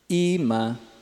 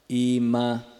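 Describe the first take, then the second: First: The first syllable is high, the second low. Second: Both syllables have a low tone. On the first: I am showing. "é alto, baixo" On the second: I show. "presente, baixo, baixo"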